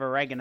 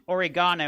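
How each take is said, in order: First: It is said with an American pronunciation. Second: It is said with a British pronunciation. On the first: "as I know you guys like to pronounce it" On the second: "saying, uh, you know, oregano"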